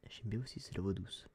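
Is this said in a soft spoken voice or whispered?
soft spoken. It is spoken aloud in a gentle voice. "comme ça"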